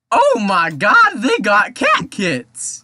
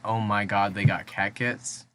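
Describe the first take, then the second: First: It is said in a put-on character voice. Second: It is said in a natural speaking voice.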